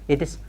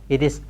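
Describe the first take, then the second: No difference in how they are said.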